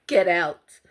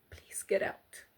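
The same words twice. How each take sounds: First: Louder, blunt urging; firm command. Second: Whispered, pleading softly; urgent plea. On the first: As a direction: tell them to leave, firmly. Urging victims to leave. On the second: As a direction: beg them quietly to leave. Begging viewers to escape abuse. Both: Real, not acted.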